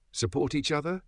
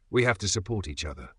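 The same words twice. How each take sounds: First: Higher, disbelieving throwback of the words; snapping her own words back at mom; incredulous echo. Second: Said in the usual way. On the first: Retold or imitated. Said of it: "I snapped".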